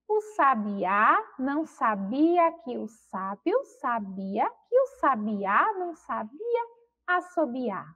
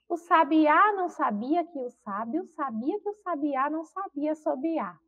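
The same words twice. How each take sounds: First: The sentence is spoken at a slow pace. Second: The sentence is spoken at a fast pace. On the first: "eu vou ler devagar" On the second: "Vamos tentar falar aí mais rápido"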